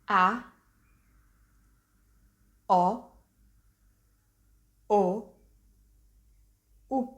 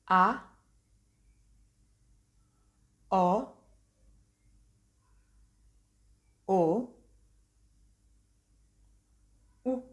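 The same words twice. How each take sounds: First: The vowels are said at a quicker pace. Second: The vowels are said at a slower pace.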